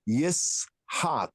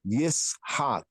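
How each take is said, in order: No difference in how they are said.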